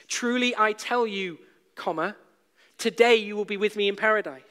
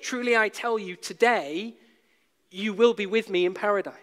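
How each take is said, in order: First: The pause comes before the word today. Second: The pause comes after the word today. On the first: Being in paradise happens today. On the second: The promise itself is made today.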